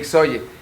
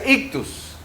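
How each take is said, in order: First: The word is read as 'ixoye'. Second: The word is read as 'ictus'. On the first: The speaker calls it wrong. "no se lee Ixoye" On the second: The speaker calls it right. "Entonces se pronuncia ictus"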